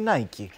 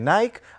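First: The brand name is said the American way. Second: The brand name is said the European way. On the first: This is how the company says its own name. "σαν εταιρεία στην Αμερική στη βάση της είναι Nike" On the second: This is how the name is said in European markets. "στις ευρωπαϊκές χώρες, όπως μέσα είναι και η δική μας να τη λέμε Nike"

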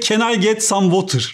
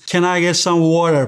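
First: It is said with a Turkish accent. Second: It is said with an American accent. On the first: "in Turkish, we pronounce every sound. ... we say" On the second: "What they expect is"

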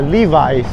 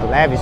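First: The first vowel sounds like 'ee'. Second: The first vowel sounds like 'eh'. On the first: The speaker calls it right. "porque o E em inglês ele tem som de I" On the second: The speaker calls it wrong. "O pessoal gosta de falar leves"

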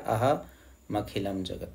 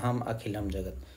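First: Aham and akhilam run together as one word. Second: Aham and akhilam are said as separate words. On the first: The speaker calls it right. "उच्चारण में आपने ऐसे ही बोलना है जैसे book में लिखा" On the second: The speaker calls it wrong. "यहाँ अहम और यहाँ पर अखिलम ऐसे भी हो सकता है"

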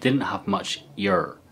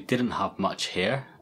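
First: The H at the start of 'here' is dropped. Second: The H at the start of 'here' is pronounced. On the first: "the way she says it with her accent" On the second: "She says we didn't have much here"

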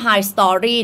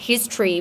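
First: The first syllable sounds like 'high'. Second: The first syllable sounds like 'hiss'. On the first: The speaker calls it wrong. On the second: The speaker calls it right.

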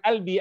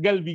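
First: The word begins with a glottal stop. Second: The word begins with a hard g sound. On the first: This is how Egyptians say it. "Kalau orang Mesir mengatakan albi" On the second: This is how Yemenis say it. "Orang Yaman mengatakan galbi"

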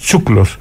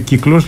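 First: It starts with ts and the vowel u. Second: It starts with k and the vowel i. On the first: This is the local dialect form. "λέμε τσούκλος" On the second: This is the standard Modern Greek form. "Δεν λέμε κύκλος"

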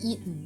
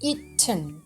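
First: The t sound is held back in the throat. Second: The t sound is fully released. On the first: This is the American way of saying it. "hold กลั้นเอาไว้แบบนี้ค่ะ" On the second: This is the British way of saying it. "จะพูดตามตัวสะกดนั่นแหละ"

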